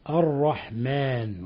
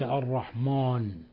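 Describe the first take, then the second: First: The long 'a' is light and thin. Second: The long 'a' is heavy and darkened. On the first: The speaker calls it right. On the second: The speaker calls it wrong. "وليس الرحمن"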